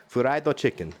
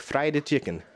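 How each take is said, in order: First: Put-on Asian accent on "Fried chicken"; "Fried chicken" in an Asian accent, extra vowel after the F. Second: Said in the usual way. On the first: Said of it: "say that with that accent".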